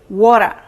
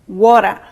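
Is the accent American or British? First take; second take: American; American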